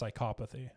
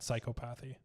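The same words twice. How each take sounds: First: It sounds different from plain 'psychopath' plus -y. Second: It sounds like plain 'psychopath' with -y added. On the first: The speaker calls it right. "psychopath changed to psychopathy" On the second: The speaker calls it wrong. "not psychopathy"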